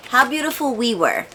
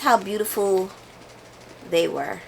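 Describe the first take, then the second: First: Quick, sure, falling on the title; confident correction. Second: Softer, trailing question on the title; testing the wrong title aloud; unsure guess. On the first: Booktuber settling on the right title, confidently. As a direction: land the right title firmly. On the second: Booktuber unsure of a title, softly guessing. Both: Real, not acted. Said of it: "Oh, which one is it?".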